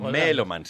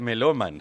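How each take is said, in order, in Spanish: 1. La tónica está en la primera sílaba. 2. La tónica está en la segunda sílaba. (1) "esdrújula"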